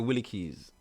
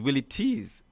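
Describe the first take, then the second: First: The second word begins with a k sound. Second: The second word begins with a t sound. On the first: The speaker calls it wrong. "we speak dialect bad" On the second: The speaker calls it right. "that's the word pronunciation"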